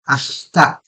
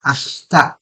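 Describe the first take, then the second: First: A throaty h runs straight into k. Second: A throaty h runs straight into k.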